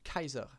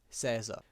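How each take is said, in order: First: The word begins with a hard K sound. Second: The word begins with a soft S sound.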